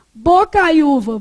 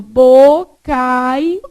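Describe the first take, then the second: First: Bocaiúva said slowly, syllable by syllable, stress on ú; careful syllables. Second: Bocaiúva stretched very slowly and louder, leaning on ú; drawn-out demo. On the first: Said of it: "Não". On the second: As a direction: pull bocaiúva out long and loud for the class. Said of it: "Perdeu o acento por quê?". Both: Shown as a demonstration.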